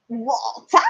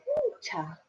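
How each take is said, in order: First: "Walter" with open a and stressed end; imitated pupil's attempt. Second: High, soft "Walter" with a long aw; teacher's correct pronunciation. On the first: Pupil echoing the teacher's word, imitated mispronunciation. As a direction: mimic a learner trying "Walter", wal-TAH. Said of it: "She went". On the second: Retold or imitated. Teacher modelling the word again for her pupil, careful pronunciation. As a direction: draw out the aw in "Walter", high and gentle. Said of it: "I said".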